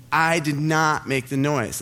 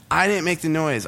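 First: "did not" slowed and stressed; slow down and lean on "did not"; emphatic denial. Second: Said in the usual way. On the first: Retold or imitated. Student swearing innocence to his teacher, "did not" slow and emphatic. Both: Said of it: "I'm like".

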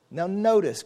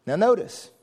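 First: "notice" set down firmly with a falling tune. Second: "notice" lifted up as a question; notice, rising. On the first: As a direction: land "notice" as a statement. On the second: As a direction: call attention with "notice" rising. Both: Shown as a demonstration.

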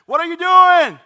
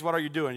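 First: High, full-voiced holler to a neighbor; loud yelled question, high-pitched; screamed question. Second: Said in the usual way. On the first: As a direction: shout it so it carries next door. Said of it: "I would scream at Adrian".

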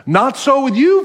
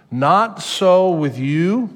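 First: "Not so with you" much higher and louder, rising on "you"; emphatic preaching. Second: "Not so with you" drawn out slowly, rising on "so"; slow deliberate phrase. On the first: Pastor proclaims Jesus' words to followers, high and forceful. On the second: Pastor introduces the key phrase to the congregation, slow and deliberate. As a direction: lay out "Not so with you" slowly, weighing each word. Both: Shown as a demonstration. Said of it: "But this phrase".

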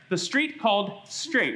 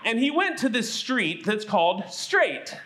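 First: Slower, each word set apart, "Straight" landed firmly; slow it down and stamp "Straight" so kids remember it; stress on Straight. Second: Said in the usual way. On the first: Shown as a demonstration. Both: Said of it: "What's the name of the street?".

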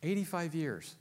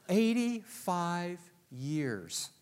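First: Said in the usual way. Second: Each word drawn out, half speed; slow emphatic repeat. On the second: Real, not acted. Preacher repeating a figure to the congregation, slow and emphatic. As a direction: stretch it out and let every word land.

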